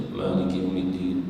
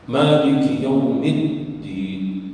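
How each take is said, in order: First: Maliki Yaumiddin evenly with a single light d; unstressed wrong reading of Maliki Yaumiddin; shaddah dropped. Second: Maliki Yaumiddin very slow, double d held; slow, firm model of Maliki Yaumiddin; shaddah recitation. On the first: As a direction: glide over the dd in "Maliki Yaumiddin". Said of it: "Jangan dibaca". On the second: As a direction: press the dd in "Maliki Yaumiddin", slowly. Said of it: "Di situ ada syaddah". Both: Shown as a demonstration.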